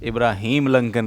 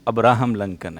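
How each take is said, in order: First: The first name starts with an 'ee' sound. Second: The first name starts with an 'ah' sound. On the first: The speaker calls it wrong. "इब्राहिम लंकन नहीं है भाई" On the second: The speaker calls it right. "अब्राहम लंकन है"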